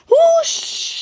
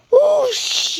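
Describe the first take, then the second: First: Very high, loud rushing whoosh; steam whoosh. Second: High, loud rushing whoosh; steam whoosh. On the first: Gordon sliding into the ditch, louder steam whoosh. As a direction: let the steam burst out. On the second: Gordon slipping off the rails, loud steam whoosh. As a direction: blast it like escaping steam. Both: A narrator's reading. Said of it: "he hissed".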